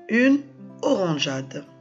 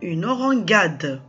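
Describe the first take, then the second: First: The g is a soft zh sound. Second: The g is a hard g sound. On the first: The speaker calls it right. "C'est pour cela qu'on a le E avant le A" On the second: The speaker calls it wrong. "si j'enlève le E, ça me donne une orangade. Et c'est faux"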